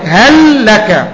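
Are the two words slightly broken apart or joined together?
broken. A very slight pause comes after the first word. The speaker calls it right. "تقف على اللام وقفة بسيطة جدا في قراءتك"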